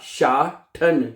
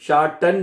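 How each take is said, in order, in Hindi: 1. t की आवाज़ ज़ोर से एस्पिरेटेड है। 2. t की आवाज़ प्लेन है, इसमें एस्पिरेशन नहीं है। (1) "टी को ठे पढ़ना है" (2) "शाठन नहीं कहना, टी नहीं पढ़ना उसको"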